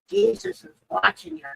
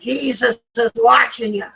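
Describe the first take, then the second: First: It is said at a quiet volume. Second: It is said very loudly.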